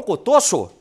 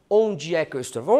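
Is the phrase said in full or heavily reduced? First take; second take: reduced; full. First: The words are squeezed together into one short word. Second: Every word is pronounced fully and separately. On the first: This is how someone from Minas Gerais says it. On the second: This is the standard, non-regional way to say it.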